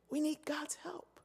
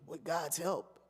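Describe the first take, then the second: First: Slow hushed "We need God's help"; whispered. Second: Said in the usual way. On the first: Shown as a demonstration. Preacher repeats the vow to the church, whispered and slow. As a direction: breathe "God's help" slowly, voiceless.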